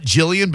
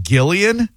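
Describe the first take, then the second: First: Jillian with a soft J as in jam. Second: Gillian with a hard G as in go, rising like a question. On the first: Host contrasting the caller's name, says Jillian with a soft J. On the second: Host checking the caller's name, Gillian with a hard G. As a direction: start Gillian with a hard G, asking. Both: Shown as a demonstration. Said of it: "Hard G".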